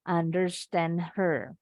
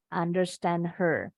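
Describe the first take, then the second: The two takes are said the same way.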